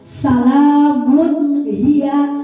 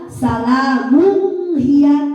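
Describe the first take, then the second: First: The n sound before hiya is clear. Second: The n sound before hiya is blurred. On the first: The speaker calls it right. "maka membaca tanwin tersebut harus sangat jelas" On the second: The speaker calls it wrong. "jangan dibaca salamun hiya, itu pembacaan yang salah"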